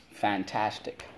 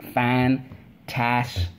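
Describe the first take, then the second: First: Said in the usual way. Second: FANTASTIC split into fan, tas, tic with long pauses; syllable by syllable. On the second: Shown as a demonstration. Teacher leading spelling class, syllable by syllable. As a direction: chant Fantastic slowly, one syllable at a time. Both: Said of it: "Let's go".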